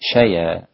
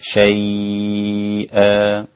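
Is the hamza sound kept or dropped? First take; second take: dropped; kept. First: The hamza is dropped when stopping on the word. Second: The diphthong is lengthened and the hamza is kept. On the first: "وقف على شيئا شيا هكذا" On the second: "مد اللين هكذا"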